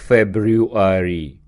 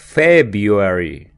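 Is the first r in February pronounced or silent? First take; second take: pronounced; silent. First: The first r is clearly pronounced. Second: The first r is left silent. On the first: The speaker calls it wrong. "читаем не как February" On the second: The speaker calls it right. "а как February. Первая буква R не читается"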